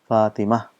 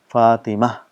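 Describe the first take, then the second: First: The word ends with a soft h sound. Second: The word ends with a soft h sound.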